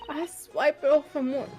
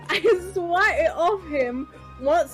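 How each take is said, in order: First: The words are slurred and hard to make out. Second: The words are clearly and distinctly pronounced. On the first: The speaker calls it wrong. "you definitely can be enunciating more" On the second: The speaker calls it right. "That's much better"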